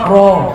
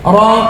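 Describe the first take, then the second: First: The vowel is shifted toward an 'o' sound. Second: The vowel is an open 'a' sound.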